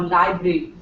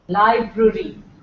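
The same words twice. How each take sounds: First: One r sound is dropped. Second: Both r sounds are pronounced. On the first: The speaker calls it wrong. "not library or library or whatever" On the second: The speaker calls it right. "There are two R's"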